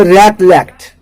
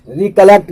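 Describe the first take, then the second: First: रिकलेक्ट said "rek-lekt", slowly and firmly; correct pronunciation. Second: रिकलेक्ट said "ri-kə-lekt", the wrong way; wrong pronunciation. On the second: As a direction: show रिकलेक्ट as the mistake. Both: Shown as a demonstration. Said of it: "रिकलेक्ट नहीं पढ़ना".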